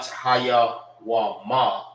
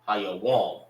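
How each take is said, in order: First: The word ends with an extra vowel sound. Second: The word ends on a consonant sound. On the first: The speaker calls it wrong. "not Hayawama" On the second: The speaker calls it right. "You're saying these two together"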